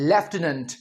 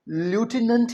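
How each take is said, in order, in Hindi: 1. पहला शब्दांश 'left' है, इसमें f की आवाज़ है। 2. पहला शब्दांश 'loo' है, इसमें f की आवाज़ नहीं है। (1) "ब्रिटिशर्स इसे कैसे बोलते हैं?" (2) "अमेरिकन इंग्लिश में इसे ल्यूटिनेंट ही कहा जाता है"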